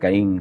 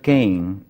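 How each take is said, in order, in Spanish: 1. El nombre se dice con pronunciación española. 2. El nombre se dice con pronunciación inglesa. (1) "como en español" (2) "se tiende a pronunciar Cain en Inglaterra"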